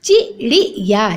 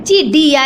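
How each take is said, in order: First: "चिड़िया" slowly, syllable by syllable; chi-ri-ya, spaced out, for "चिड़िया"; correct flapped sound. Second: "चिड़िया" with a hard d; no flap in "चिड़िया", plain d stop; wrong pronunciation. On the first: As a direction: flap the ड़ in "चिड़िया". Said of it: "जबकि क्या होता है बच्चों". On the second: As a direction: say "चिड़िया" as chi-di-ya. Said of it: "लिख रखा है इसमें". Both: Shown as a demonstration.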